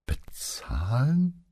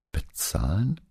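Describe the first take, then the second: First: Hushed, drawn-out BEZAHLEN climbing high; stunned disbelief. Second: Raised, questioning repeat of BEZAHLEN; surprised echo question. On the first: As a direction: stretch "Bezahlen" slowly upward, half whispered and incredulous. Paola repeats it in disbelief. (fassungslos, gedehnt und hauchig nachgefragt) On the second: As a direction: echo "Bezahlen" with a rising, startled question tune. Paola reacts to shocking news. (überrascht nachgefragt) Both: A narrator's reading.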